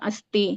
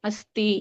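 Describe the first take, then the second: The two takes are said the same way.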